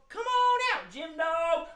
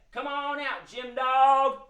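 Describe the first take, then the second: First: Very high sing-song echo of a call; high-pitched calling. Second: Sing-song call, drawn out. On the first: Echoing for the children summoning the dog, high calling. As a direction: call out in a little high head voice. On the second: Host leading children to summon the dog, calling out. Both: Pretend.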